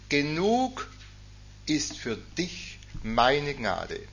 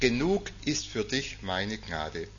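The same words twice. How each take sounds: First: The sentence is spoken very slowly. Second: The sentence is spoken at a normal pace.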